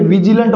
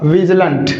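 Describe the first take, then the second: First: विजिलेंट with a clear ee sound after the V, vi-ji-lent; common wrong pronunciation. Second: विजिलेंट with no ee sound, short vij-lent; correct pronunciation. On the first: Teacher to students, showing the common mispronunciation. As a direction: say विजिलेंट the wrong way, keeping the ee vowel. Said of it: "इसमें ई की sound नहीं आएगी". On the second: Teacher to students, showing the correct pronunciation. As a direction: say विजिलेंट the correct way, dropping the ee vowel. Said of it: "इसका जो correct pronunciation होगा". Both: Shown as a demonstration.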